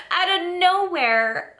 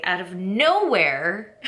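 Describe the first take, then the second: First: Said high through laughter; laughing. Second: Said in the usual way. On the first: Real, not acted. Vlogger amused at her own words, laughing high. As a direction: laugh the words out, much higher. Repeats phrase, second time laughing.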